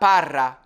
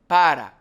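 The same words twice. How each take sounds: First: The R is a rolled, trilled sound. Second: The R is a single quick tongue tap. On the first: The speaker calls it wrong. "It's not para" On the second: The speaker calls it right. "The single R is a simple tap your tongue on kind of like the front palate"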